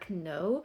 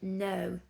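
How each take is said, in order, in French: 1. Le K au début se prononce. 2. Le K au début est muet. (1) "mais on ne dit pas know" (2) "On ne prononce pas le K au début"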